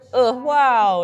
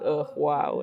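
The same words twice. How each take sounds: First: It is said in a bright, positive tone. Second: It is said in a sad, tired tone. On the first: The feeling behind it is a good one. "in like a really positive way" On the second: The feeling behind it is a bad one. "in like a very sad, exhausted way"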